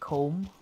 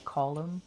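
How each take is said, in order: First: The name is said the American way. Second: The name is said the Irish way. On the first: The speaker calls it wrong. "in America they call it comb" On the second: The speaker calls it right. "but you know it's Colin"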